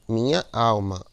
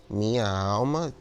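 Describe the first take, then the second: First: MINHA ALMA firm and louder, as units; joined poetic syllables. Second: MINHA ALMA slow, each syllable drawn out; separated syllables. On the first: Teacher shows poetic scansion, MINHA ALMA loud and less stretched. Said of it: "bota só em uma sílaba poética". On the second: Teacher shows grammatical division, MINHA ALMA slowly separated. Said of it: "bem direitinho, você separar nas sílabas". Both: Shown as a demonstration.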